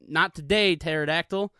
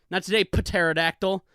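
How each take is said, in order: First: Said in the usual way. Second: "pterodactyl" with the P pronounced, puh-terodactyl; sounded silent P. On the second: Acted. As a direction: say "pterodactyl" as puh-TERR-uh-dactyl. Repeats it voicing the silent P.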